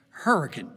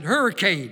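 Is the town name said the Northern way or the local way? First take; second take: local; Northern. First: The name is said the local West Virginian way. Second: The name is said the Northern, Yankee way. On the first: The speaker belongs to the town. The speaker calls it right. "It's called Hurricane. Say it right" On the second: The speaker is an outsider to the town. The speaker calls it wrong. "that's the way Yankees pronounce it"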